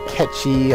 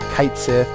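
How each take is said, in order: First: Said as one word, like 'ketchy', Scottish-style. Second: Said as two words, rhyming with 'kite'.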